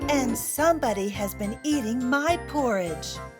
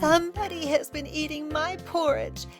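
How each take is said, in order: First: It is said in a medium-sized voice. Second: It is said in a squeaky tiny voice.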